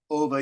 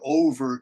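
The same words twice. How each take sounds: First: The R at the end is soft, almost silent. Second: The R at the end is hard and clearly heard. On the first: "Over in Australia sounds like over, over. You almost can't hear the R" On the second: "Americans say worn for over twenty years, like that. We we do hard R sounds"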